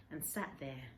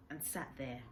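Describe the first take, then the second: No difference in how they are said.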